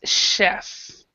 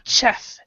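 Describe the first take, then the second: First: It begins with a softer sh-like sound. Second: It begins with a hard ch sound. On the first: The speaker calls it right. "a cross between the ch and this sh" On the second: The speaker calls it wrong. "It's not chef"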